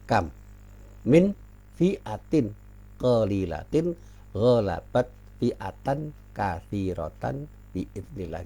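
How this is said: Each word is separated by a short pause. "Kalau kita baca dipotong-potong-potong"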